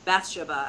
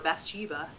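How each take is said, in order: First: The name is said the British way. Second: The name is said the American way. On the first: "as the British would say" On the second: "as Americans say it"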